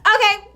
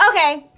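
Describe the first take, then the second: First: "Okay." jumps much higher and louder; the second, angrier "Okay." as it escalates; exasperated okay. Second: Clipped, annoyed okay, raised; a curt, pissed-off "Okay."; first annoyed "Okay." before it boils over; irritated okay. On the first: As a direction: let the anger spike on the second "Okay.". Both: Retold or imitated. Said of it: "Girl, she was so pissed".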